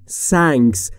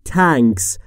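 First: The word starts with an s sound. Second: The word starts with a d sound. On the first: "یا نباید بگیم" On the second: "نباید بگیم"

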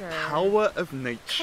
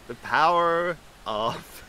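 First: It is said in the speaker's usual accent. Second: It is said in an American accent.

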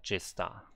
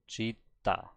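First: The word has an s sound before the t. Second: The word has a plain double t, no s. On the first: The speaker calls it wrong. "And not jista" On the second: The speaker calls it right.

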